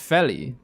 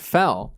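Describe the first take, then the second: First: The name is said as two syllables. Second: The name is said as one syllable. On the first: The speaker calls it right. "It's Feli" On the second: The speaker calls it wrong. "That's not how you say his name"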